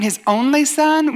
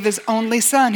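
First: Slow, high-pitched questioning echo; incredulous objector. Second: Said in the usual way. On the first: Acted. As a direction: throw it back as a doubter's challenge. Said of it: "somebody who doesn't even believe there's a God". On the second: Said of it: "when you share the gospel and you say".

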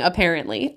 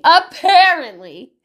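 First: Said in the usual way. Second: Apparently said louder, slower, rising; stressed repeat. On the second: Real, not acted. Mother correcting herself, stressing apparently. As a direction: lean hard on apparently. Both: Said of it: "repeated with emphasis".

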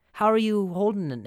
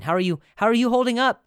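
First: Said in the usual way. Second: High, loud, fast chirpy how-are-you; imitating what people cheerfully say; mock friendly check-in. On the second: Mocking people's cheerful pandemic check-in question. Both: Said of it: "That's what people say".

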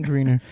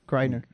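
First: Greener said with a long ee, like green; wrong name. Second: Griner said with a long i, like in grind; right name. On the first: Podcaster guessing the athlete's name, saying Greener. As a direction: say Greener, rhyming with cleaner. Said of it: "butchering her name". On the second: Podcaster settling the athlete's name, saying Griner. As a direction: say Griner with the eye sound, GRY-ner. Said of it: "No, I think it's Griner". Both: Real, not acted.

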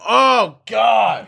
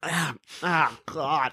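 First: High, loud cry of mock revulsion; mock disgusted outburst. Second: Mock tasting something foul, softly; imitated disgust. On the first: Imitating a random fart victim, loudly revolted. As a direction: yell it like a bystander hit by a stench. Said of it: "or just, like, the random". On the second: Imitating people tasting a fart, quietly disgusted. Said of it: "they're just like".

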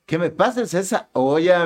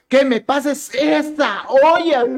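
First: Said in the usual way. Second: High, loud, drawn-out mock yell; retold shout. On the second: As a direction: imitate an exasperated mother-in-law yelling, slowly. (grito imitado de suegra, agudo y alargado) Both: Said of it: "tu mamá me gritó".

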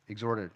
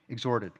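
The two takes are said the same way.

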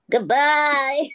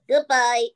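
First: Weak, lightly voiced sultan farewell; half-hearted sultan impression. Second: Said in the usual way. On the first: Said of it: "say goodbye in your special Sultan voice". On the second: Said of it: "That was really crap".

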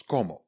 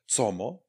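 First: "cómo" said with a hard k at the start; "cómo" with C pronounced as k; correct Spanish pronunciation. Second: "Cómo" read as written, starting with a ts sound; "Cómo" with C as ts, rising at the end; spelling pronunciation. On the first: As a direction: say "cómo" as "komo", falling at the end. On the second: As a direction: say "Cómo" as "tsomo", Czech letter-by-letter reading. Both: Shown as a demonstration. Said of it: "psáno výslovnost".

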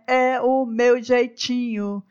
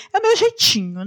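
First: Slow drawn-out shrug; slowly repeated, resigned self-description. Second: Higher, louder shrugging excuse; much higher, a little louder take on her own manner; playful excuse. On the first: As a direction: let it settle slowly. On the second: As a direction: toss it off brightly. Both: Real, not acted. Repeats phrase two ways.

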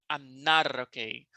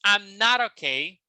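First: "not okay" run together as "naro-kay", the T flapped like an R; linked not okay. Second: Said in the usual way. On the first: Shown as a demonstration. Teacher showing students the linked "not okay" with the T as R. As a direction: link "not okay" so the T turns into a soft R before the O. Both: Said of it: "Olha como puxei agora".

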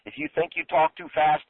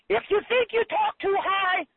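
First: Said in the usual way. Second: Squeaky-high demo voice; exaggeratedly high-pitched talking; too high. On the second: Shown as a demonstration. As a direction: shoot the whole phrase way up in pitch.

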